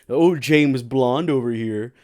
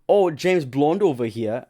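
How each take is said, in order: First: It is said in the speaker's normal accent. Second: It is said in a put-on, attempted British accent.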